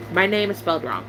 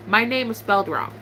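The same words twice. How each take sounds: The two takes are said the same way.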